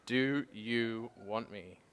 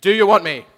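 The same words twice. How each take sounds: First: Slow, level, drawn out; slow gentle asking. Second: High and very loud, flung upward; loud calling out. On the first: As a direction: ask it slowly, letting each word land. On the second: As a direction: shout the question to the heavens. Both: Retold or imitated. Voice of God asking, repeated.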